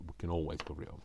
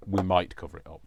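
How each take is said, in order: First: Said in the usual way. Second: "might" punched louder, quick phrase; stress on might. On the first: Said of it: "we might cover it up, is what I mean". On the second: Shown as a demonstration. Crafter correcting her own promise, stressing "might". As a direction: correct yourself by leaning hard on "might". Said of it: "is what I mean".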